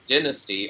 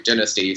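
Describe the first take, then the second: First: "Dynasty" said with a long "die" first syllable; American pronunciation. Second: "Dynasty" said with a short "din" first syllable; British pronunciation. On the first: Co-host showing how Americans say the show's title, American "Dynasty" as DIE-nas-tee. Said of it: "which is pronounced in America". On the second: Co-host correcting to the British title, British "Dynasty" as DIN-as-tee. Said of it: "since the British thing". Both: Shown as a demonstration.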